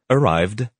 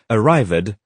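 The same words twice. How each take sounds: First: The ending adds no extra syllable. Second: The ending is an extra 'id' syllable. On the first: The speaker calls it right. "the correct forms" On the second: The speaker calls it wrong. "students generally say ed or id"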